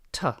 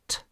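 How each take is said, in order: First: The consonant is followed by an 'uh' vowel. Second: The consonant is said alone, with no vowel. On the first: The speaker calls it wrong. "not t" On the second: The speaker calls it right. "or t"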